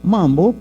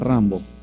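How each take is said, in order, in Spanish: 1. El nombre empieza con un sonido M. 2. El nombre empieza con un sonido R. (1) "Ella le dice Mambo. porque todavía no pronuncia bien las R's" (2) "Se llama Rambo"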